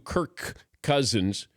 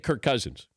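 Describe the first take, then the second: First: Both K sounds are said separately and fully. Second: The two words blend, dropping one K sound. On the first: "if you do Kirk Cousins, you know, ... it doesn't flow" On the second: "I get lazy sometimes. I'll just say"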